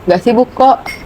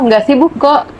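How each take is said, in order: First: It sounds cold and unenthusiastic. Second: It sounds warm and eager to listen.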